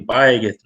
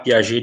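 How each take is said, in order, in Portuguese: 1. O nome é dito com sons portugueses. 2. O nome mantém a pronúncia original.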